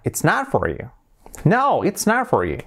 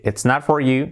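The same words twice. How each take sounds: First: "It's not for you" with a big swing on "not", falling away; exaggerated intonation. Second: Even, robot-like "It's not for you"; level academic reading of "It's not for you"; without intonation. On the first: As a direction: swoop on "No" and "not", native-style melody. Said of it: "con entonación incluso mucho más exagerada". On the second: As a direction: say "It's not for you" with little stress on any word. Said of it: "hablamos como robots". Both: Shown as a demonstration.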